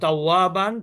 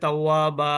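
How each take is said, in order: First: The word ends with an n sound. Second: The word ends with a long vowel.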